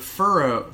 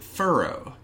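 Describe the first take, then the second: First: The first syllable does not sound like 'fur'. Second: The first syllable sounds like 'fur'. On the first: The speaker calls it right. "But Ferro" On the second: The speaker calls it wrong. "I always pronounce it Ferro, like F-U-R-R-O"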